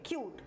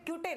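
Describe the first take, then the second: First: The word ends on the t, e silent. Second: The final e is sounded after the t. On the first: The speaker calls it right. "इसको हम पढ़ेंगे क्यूट" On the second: The speaker calls it wrong. "तो इसे क्यूटे नहीं पढ़ेंगे"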